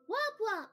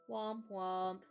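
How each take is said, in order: First: It is said in a put-on, shifted-pitch voice. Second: It is said in a natural speaking voice. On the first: The speaker calls it right. "I have to say it like Shally Lily" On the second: The speaker calls it wrong. "I said it wrong"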